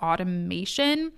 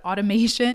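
First: "automation" drawn out slowly. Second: Said in the usual way. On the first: Real, not acted. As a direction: stretch out the word "automation". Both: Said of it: "I don't know why I said it so slow".

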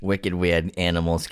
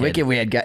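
First: Put-on light Boston accent, dropped r. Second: A little Boston twang; Boston accent. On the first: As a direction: say it like a Bostonian local. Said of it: "a little Boston accent in there". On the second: Pretend. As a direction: toss in a slight Boston accent. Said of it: "I was throwing just a little Boston accent".

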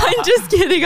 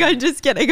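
First: Much higher, louder, laughing through it. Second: Said in the usual way. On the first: Real, not acted. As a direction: laugh off the joke.

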